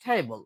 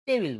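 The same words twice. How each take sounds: First: "টেবল" with a puffed T, like ঠেবল; loud breathy T in "টেবল", ending -bol; aspirated T. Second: Said in the usual way. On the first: Shown as a demonstration. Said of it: "right accent". ("টেবল"-এর ট মহাপ্রাণ) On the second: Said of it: "টেবিল কিন্তু হবে না".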